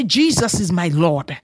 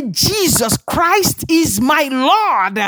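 First: Said in the usual way. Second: High, slow declaration of faith; emphatic declaration. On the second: Real, not acted. Preacher leading the congregation's confession, high drawn-out proclamation. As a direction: proclaim it slowly with each word stretched.

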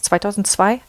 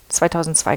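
First: Zweitausendzwei? asked with a rising, unsure tune; questioning rise. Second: Zweitausendzwei settled with a falling tune; confirming fall. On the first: Unsure of the year, asking herself. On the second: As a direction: say "Zweitausendzwei" as a firm answer. Unsure of the year, confirming it. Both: Real, not acted.

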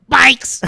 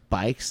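First: High, explosive mock yell; sudden incredulous shout, imitating the guy. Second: Said in the usual way. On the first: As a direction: bellow it back in disbelief. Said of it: "yells it at people". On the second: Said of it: "And he goes".

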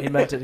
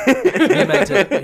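First: Said in the usual way. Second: Laughing, drawn out slowly. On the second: Real, not acted. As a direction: laugh through the words. Teasing after slip.

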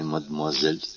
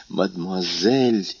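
First: Said in the usual way. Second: "Мадмуазель" slowly, stretched out, incredulous; indignant exclamation. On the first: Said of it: "возразил Максимилиан". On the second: A narrator's reading. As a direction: throw "Мадмуазель" back at him, offended and slow. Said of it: "воскликнула Валентина".

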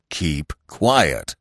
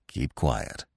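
First: Gently reproachful cry. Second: Low, soft hushing; gentle reproach. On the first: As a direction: scold gently, at full voice but low in pitch. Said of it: "he cried, reproaching him gently". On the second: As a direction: hush the hare gently, voice dropped. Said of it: "reproaching him gently". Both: A narrator's reading.

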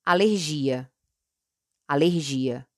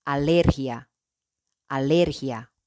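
First: "alergia" in Portuguese, stressed on GI. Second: "alergia" in Spanish, stressed on LER. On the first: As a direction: say "alergia" as a-ler-ZHEE-a. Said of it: "En portugués". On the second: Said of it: "En español". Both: Shown as a demonstration.

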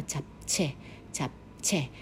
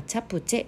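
First: チャプチェ with the p closed and no vowel after it, tchap-che; チャプチェ the correct Korean way, lips shut on p; Korean japchae. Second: Said in the usual way. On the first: Shown as a demonstration. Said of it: "正確には". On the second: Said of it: "正確にはチャプチェ".

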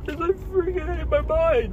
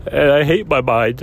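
First: Real sobbing voice, much higher; words squeezed out through tears; crying. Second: Said in the usual way. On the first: Real, not acted. Man on camera breaking down over his mind, sobbing. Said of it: "nobody knows I'm crying".

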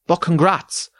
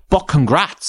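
First: Mocking snide quote. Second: "But congrats" mimed with a rising, snide lilt; mocking snide quote. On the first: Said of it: "Top comment says". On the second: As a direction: sneer the "But congrats" back at him. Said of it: "And then to say".

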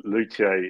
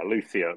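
First: Luthier said the French way, lu-tee-AY with no th; French pronunciation. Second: Luthier said the English way, LOO-thee-er with a th; English pronunciation. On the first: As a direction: luthier as a French word, stress on the last syllable. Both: Shown as a demonstration. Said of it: "is the way I would say it in French".

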